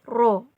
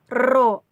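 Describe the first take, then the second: First: The r sound is a single tap without vibration. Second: The r sound is trilled with a vibrating tongue. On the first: The speaker calls it right. "cara mengucapkannya tidak sampai bergetar" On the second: The speaker calls it wrong. "Jangan ro, jangan seperti itu ya"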